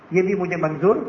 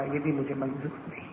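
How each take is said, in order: First: "Manzoor" lifted sharply at the end; rising repeat. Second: Low, soft, sinking refusal; quiet refusal. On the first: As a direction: end on a questioning rise on "Manzoor". Same refusal repeated, rising. ("منظور" پر اٹھتی ہوئی آواز) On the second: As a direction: refuse softly in a lowered voice. Daughter's quiet refusal, narrated. (دھیمی، نیچی آواز میں انکار) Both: A narrator's reading.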